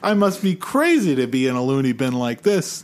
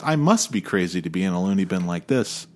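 First: The word must is not stressed. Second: The word must is stressed.

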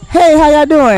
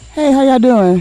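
First: It is said loudly and strongly. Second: It is said quietly and softly.

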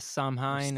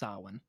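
First: The word is said the way it is spelled. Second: The word is said differently from its spelling. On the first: The speaker calls it wrong. "I thought it looks like Samhain or something" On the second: The speaker calls it right. "But it's actually pronounced Samhain"

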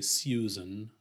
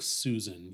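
First: It starts with a 'syoo' sound, with a glide. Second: It starts with a plain 'soo' sound. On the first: The speaker calls it wrong. "You wouldn't say Susan" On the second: The speaker calls it right. "Unless it's like a proper name like Susan"

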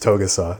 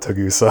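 First: The first vowel sounds like 'oh'. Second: The first vowel sounds like 'ah'. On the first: The speaker calls it right. "It's Togusa" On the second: The speaker calls it wrong. "not Tagusa"

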